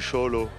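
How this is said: The word begins with a sh sound. This is the Ch'ti way of saying it.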